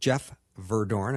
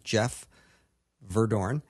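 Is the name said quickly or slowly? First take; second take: quickly; slowly. First: The name is said at a quicker pace. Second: The name is said at a slower pace.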